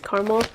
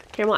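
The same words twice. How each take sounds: First: "caramel" said KAR-mul, two syllables; caramel as CAR-mul. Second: "caramel" said KAIR-mel, AIR vowel; caramel as CARE-mel. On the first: Vlogger unsure of the scent word, "caramel" as CAR-mul. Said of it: "Caramel, I don't know, who cares". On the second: Vlogger casually correcting herself, "caramel" as CARE-mel. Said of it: "I don't know, who cares". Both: Real, not acted.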